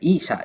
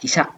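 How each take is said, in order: First: The first vowel is drawn out long. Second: The first vowel is kept short. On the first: The speaker calls it wrong. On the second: The speaker calls it right.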